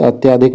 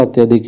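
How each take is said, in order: First: अत्याधिक with long aa before dhik; wrong form. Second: अत्यधिक with short middle vowel; correct form. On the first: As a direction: stretch the middle vowel of अत्याधिक, to reject it. (अत्याधिक में बीच का आ लंबा) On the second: (अत्यधिक में बीच का अ छोटा) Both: Shown as a demonstration. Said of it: "अत्याधिक नहीं होता".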